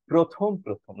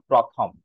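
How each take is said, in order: First: প্রথম as "pro-thom", round o; correct pronunciation. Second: প্রথম wrongly as "pra-tham"; wrong pronunciation. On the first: Teacher models it for the class, correct pronunciation. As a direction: say প্রথম with pro-, not pra-. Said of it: "তাহলে আমরা উচ্চারণ করবো". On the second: Teacher shows what not to say, wrong pronunciation. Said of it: "not প্রথম". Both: Shown as a demonstration.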